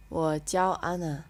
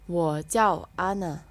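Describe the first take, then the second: First: Said in the usual way. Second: Very slow Wo jiao Ana, jiao falling; slow model reading. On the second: Shown as a demonstration. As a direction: say it slowly for repeating. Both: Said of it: "repetition practice".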